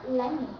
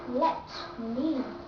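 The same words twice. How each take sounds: First: The T sound is cut off. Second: The T sound is clearly pronounced. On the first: "the sound of letter T is cut off" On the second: "Instead of saying"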